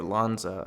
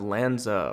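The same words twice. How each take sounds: First: "Lanza" with an open ah, as LAHN-zuh; alternative pronunciation attempt. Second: "Lanza" with a flat a, as in "land"; first pronunciation attempt. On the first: Host offering another guess at the name, "Lanza" as LAHN-zuh. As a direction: say "Lanza" to start like "lawn". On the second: Host guessing at a player's name, "Lanza" as LAN-zuh. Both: Shown as a demonstration. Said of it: "how he pronounces that".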